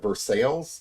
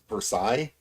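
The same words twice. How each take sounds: First: The name is said with a local anglicized pronunciation. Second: The name is said with a French-style pronunciation. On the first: This is how locals say the town's name. The speaker calls it wrong. "We just we're just not very good at pr- pronouncing um, French names" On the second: This is the original French way to say it. The speaker calls it right. "it's supposed to be pronounced"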